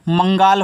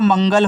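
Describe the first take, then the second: First: The second vowel is long. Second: The second vowel is short. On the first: The speaker calls it wrong. "अगर मैं मात्रा लगाऊं तब मंगाल हो जाएगा।" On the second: The speaker calls it right. "ये देखो हमारा मंगल हो जाएगा।"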